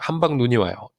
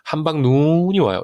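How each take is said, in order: First: The vowel of 눈 is kept short. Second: The vowel of 눈 is drawn out long. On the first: The speaker calls it right. "이렇게 짧게 읽는다는 거예요" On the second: The speaker calls it wrong. "이렇게 안 한다"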